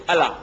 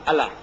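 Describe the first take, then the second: Both takes have the same delivery.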